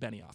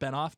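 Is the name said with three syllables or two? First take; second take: three; two. First: The name is said with three syllables. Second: The name is said with two syllables. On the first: The speaker calls it right. "but it's actually Benioff" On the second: The speaker calls it wrong. "I was saying it as though it was David Benoff"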